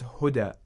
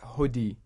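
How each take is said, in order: First: The word ends with an 'a' vowel. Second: The word ends with an 'i' vowel. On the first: The speaker calls it right. "So it's huda" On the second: The speaker calls it wrong. "it's not hudi"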